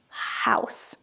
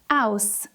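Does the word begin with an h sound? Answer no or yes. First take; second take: yes; no. First: It starts with a breathy h sound. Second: It starts with a vowel, no h sound. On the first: The speaker calls it right. "That is the sound you need to do in English" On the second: The speaker calls it wrong. "words like house and have become aus"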